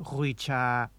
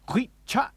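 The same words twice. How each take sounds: First: "hui cha" slow, both syllables run on smoothly; no cutoff. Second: "hui cha" high, both syllables chopped short; abrupt cutoff. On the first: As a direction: let the vowel of "cha" trail open. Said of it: "not hui cha". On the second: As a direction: stop "hui" and "cha" dead in the throat. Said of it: "The correct pronunciation of this word". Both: Shown as a demonstration.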